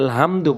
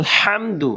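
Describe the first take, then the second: First: The h is a light breath from the upper throat. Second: The h is a tight, throaty sound from mid-throat. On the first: The speaker calls it wrong. "আমরা অনেকে আলহামদু বলি।" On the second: The speaker calls it right. "বলতে হবে আলহামদু।"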